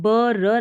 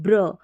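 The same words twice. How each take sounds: First: ब र spoken slowly as ba ra; separate ba ra. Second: ब्र blended into bra, the b half-sounded; ब्र clipped to a single bra; cluster bra. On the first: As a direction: say ब र as two full syllables, ba-ra. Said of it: "तो हम ब र नहीं पढ़ते". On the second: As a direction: say ब्र as one tight cluster bra, no vowel after b. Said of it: "हम पढ़ते हैं ब्र". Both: Shown as a demonstration.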